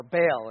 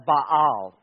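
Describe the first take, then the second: First: Baal rhyming with pail, church-style; Baal pronounced bail, like people at church say it. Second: Baal with a long open ah, bahl; Baal pronounced like bahl, as in the original. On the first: Preacher giving the churchgoer's way to say Baal, bail. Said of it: "if you're just from church". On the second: Preacher giving the scholarly way to say Baal, bahl. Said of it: "or Baal if you're just from church". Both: Shown as a demonstration.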